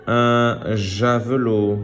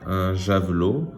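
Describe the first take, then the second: First: "Un javelot" slow, syllables stretched; word reading. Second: Said in the usual way. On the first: Shown as a demonstration. Teacher reading words to pupils, slow "Un javelot". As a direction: sound out "Un javelot" deliberately. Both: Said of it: "Je lis des mots".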